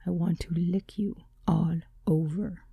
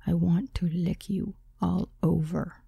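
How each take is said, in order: First: Seductive whisper. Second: Each word slow and precise; slow, soft, deliberate seduction. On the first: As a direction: breathe it like a secret, seductive. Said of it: "His deep and seductive voice in my ear". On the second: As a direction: lay every word down deliberately. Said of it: "He said it so deliberately and so precisely". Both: A narrator's reading.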